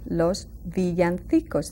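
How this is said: It is said with a Spain Spanish accent.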